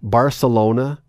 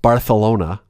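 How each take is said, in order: First: It is said with an English pronunciation. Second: It is said with a Spanish pronunciation.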